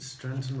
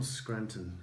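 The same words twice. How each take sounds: First: "Scranton" said as "Stranton", with str; misread pronunciation. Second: "Scranton" said with a clear skr; corrected pronunciation. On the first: Vlogger checking a town name with viewers, mispronounced with STR. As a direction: say "Scranton" with a t after the S. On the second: Vlogger offering viewers the other reading, pronounced with SKR. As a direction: say "Scranton" with a k after the S. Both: Shown as a demonstration. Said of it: "Sorry if I've pronounced it wrong".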